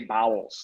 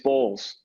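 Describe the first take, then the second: First: The name is said as two syllables. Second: The name is said as one syllable. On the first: The speaker calls it wrong. "they would say bowels" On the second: The speaker calls it right. "It's Bowles"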